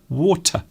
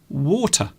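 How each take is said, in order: First: The end of the word is cut off. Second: The end of the word is cut off.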